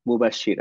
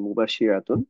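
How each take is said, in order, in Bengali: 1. শব্দটি "-a" দিয়ে শেষ হয়, শেষের অংশ বাদ যায়। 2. শব্দটি পুরো "-tun" দিয়ে শেষ হয়। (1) "ওয়াকফ করলে কি হবে উচ্চারণটা" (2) "পুরোটাই বলেছেন মুবাশশিরাতুন"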